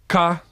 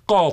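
First: The first consonant is plain. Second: The first consonant is pharyngealized. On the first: "their phonetic realization in Israeli" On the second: "the Hebrew pharyngealized emphatic consonants"

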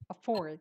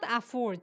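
First: The first vowel is reduced to a schwa. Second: The first vowel is a full, unreduced vowel. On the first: The speaker calls it right. "the pronunciation is schwa" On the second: The speaker calls it wrong. "It's not afford"

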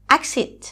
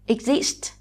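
First: The stress is on the first syllable. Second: The stress is on the second syllable. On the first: The word is used as a noun. "nếu từ này là danh từ thì chúng mình sẽ đọc nó là exit và trọng âm lại rơi ở âm tiết số một" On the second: The word is used as a verb. "động từ có hai âm tiết nên trọng âm rơi ở âm tiết số hai"

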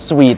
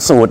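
First: The word is said like 'sweet'. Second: The word is said like 'suit'. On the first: The speaker calls it right. "ภาษาอังกฤษต้องเป็น, suite" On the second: The speaker calls it wrong. "บ้านเราเนี่ยจะออกเสียงสูท"

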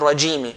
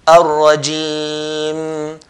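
First: The word ends with a final vowel sound. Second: The word ends on a held m. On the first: The speaker calls it wrong. "they didn't say min ash-shaytani rajimi" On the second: The speaker calls it right. "we put sukun on the meme"

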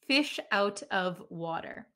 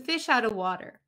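First: The words 'out of' are said fully, with a clear 'of'. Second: The words 'out of' are run together as 'outa'. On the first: "So you can pronounce of clearly if you like" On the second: "But when we talk really quickly at a native speed"

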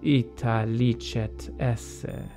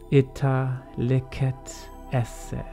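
First: It uses the Italian ecclesiastical Latin pronunciation. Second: It uses the classical Roman Latin pronunciation. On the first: "here's the Italian or ecclesiastical pronunciation" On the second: "I mostly speak in the Roman pronunciation, so I'll always start with that"

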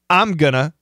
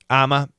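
First: Going to is reduced to gonna. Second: The phrase shrinks to one short sound, I'm a. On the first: "Most common" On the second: "It's pretty common nowadays"

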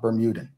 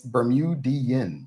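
First: The word ends with a plain 'an' sound. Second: The word ends with an 'ee-an' sound. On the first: The speaker calls it wrong. "not Bermudan" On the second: The speaker calls it right. "It's Bermudian"

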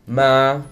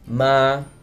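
First: The pitch stays level at mid height. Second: The pitch stays level at mid height.

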